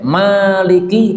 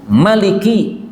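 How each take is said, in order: First: The first vowel is long. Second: The first vowel is short. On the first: "maliki panjang" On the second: "maliki pendek"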